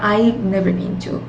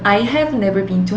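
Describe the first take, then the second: First: 'I have' is shortened into one syllable. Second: Both words of 'I have' are said fully. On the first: The speaker calls it right. "I have가 아니라 I've never been to 이렇게 축약된 형태로" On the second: The speaker calls it wrong. "I have never been to 하시는 것보다"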